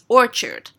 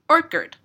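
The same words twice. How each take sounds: First: The word ends with a 'chard' sound. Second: The word ends with a 'kid' sound, like orchid. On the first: The speaker calls it right. "it's orchard" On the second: The speaker calls it wrong. "Like orchid"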